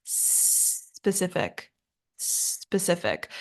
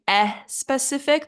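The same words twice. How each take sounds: First: "Specific" opening on a long hissed s, no vowel before it; soft, slow "Specific" with a drawn-out sss; starts with S. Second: "eh specific" with an eh added before the s; extra eh sound. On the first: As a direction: hold the first s of "Specific", then finish softly. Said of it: "it should just start with an S". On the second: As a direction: say "eh specific", a learner's added vowel up front. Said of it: "They add an eh sound at the beginning". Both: Shown as a demonstration.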